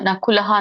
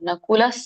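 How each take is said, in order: First: The word ends with a breathy 'ha' sound. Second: The word ends on a plain vowel sound. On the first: The speaker calls it wrong. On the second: The speaker calls it right.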